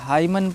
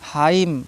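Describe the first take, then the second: First: A final n sound follows the m. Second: It ends on m with no n sound. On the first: The speaker calls it wrong. "हाइमन नहीं पढ़ा जाएगा" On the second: The speaker calls it right. "एन silent हो जाता है"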